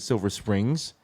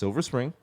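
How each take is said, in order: First: The name ends with an added s sound. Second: The name ends without an s sound. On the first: The speaker calls it wrong. "I've been pronouncing it Silver Springs" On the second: The speaker calls it right. "It's just Silver Spring"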